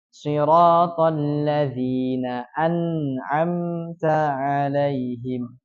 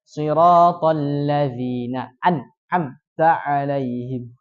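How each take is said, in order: First: The n sound flows on a little. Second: The n sound stops short without flowing. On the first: The speaker calls it right. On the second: The speaker calls it wrong. "tidak dibaca"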